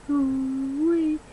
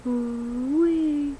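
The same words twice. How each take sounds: The two takes are said the same way.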